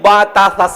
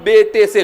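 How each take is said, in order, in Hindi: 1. अक्षरों के नाम लंबे 'a' स्वर पर खत्म होते हैं। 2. अक्षरों के नाम 'e' स्वर पर खत्म होते हैं। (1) "सही है" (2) "गलत है"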